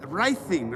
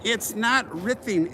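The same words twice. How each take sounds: First: Writhing said as rye-thing; correcting writhing. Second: Slow, higher writhing with short i; correcting writhing. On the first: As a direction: say writhing with a long i. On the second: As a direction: stress not, then writhing. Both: Shown as a demonstration. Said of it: "W R I T H I N G".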